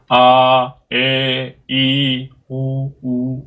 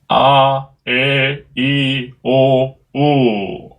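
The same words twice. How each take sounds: First: The last two vowels sound weaker and recessed. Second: All five vowels sound equally strong and voiced. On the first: The speaker calls it wrong. "오, 우는 빠지죠" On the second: The speaker calls it right. "성대를 딱 강하게 붙여서"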